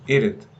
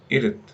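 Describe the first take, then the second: First: The words merge into a short two-syllable form. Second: The words merge into a short two-syllable form.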